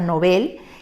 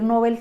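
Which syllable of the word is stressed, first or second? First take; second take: second; first. First: The stress is on the second syllable. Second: The stress is on the first syllable. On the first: The speaker calls it right. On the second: The speaker calls it wrong.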